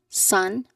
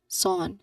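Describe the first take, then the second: First: The vowel is plain, like in sun. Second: The vowel is nasal and slightly different. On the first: The speaker calls it wrong. "It's not literally just sun" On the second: The speaker calls it right. "The sound is um coming from um our nose"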